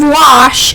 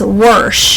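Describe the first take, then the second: First: Wash is said with no r sound. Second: Wash is said with an added r sound. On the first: This is the usual way to say it. "instead of wash" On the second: This is how the grandmother says it. "she says worsh"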